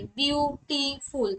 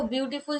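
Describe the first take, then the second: First: বিউটিফুল slowly split into three syllables, biu-ti-ful. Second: Said in the usual way. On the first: Shown as a demonstration. Teacher showing students three syllables, বিউটিফুল broken up slowly. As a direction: sound out বিউটিফুল slowly, a gap after each syllable. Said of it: "বিউটিফুল যখন উচ্চারণ করি". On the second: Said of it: "যখন উচ্চারণ করি".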